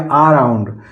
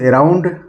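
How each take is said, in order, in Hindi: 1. शब्द की शुरुआत लंबे aa स्वर से होती है। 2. शब्द की शुरुआत e स्वर से होती है।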